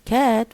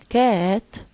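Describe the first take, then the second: First: The pitch rises across the word. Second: The pitch falls and then rises. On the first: "was rising intonation" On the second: "with um, uh, falling rising"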